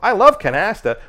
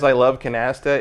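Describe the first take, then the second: First: It is said outward, like a delivered line. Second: It is said casually, as if to oneself.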